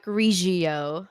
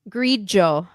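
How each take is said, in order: First: The middle consonant is a hard g sound. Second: The middle consonant sounds like j in jealous. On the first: The speaker calls it wrong. "not Grigio" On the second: The speaker calls it right. "Like like um jealous, the j sound"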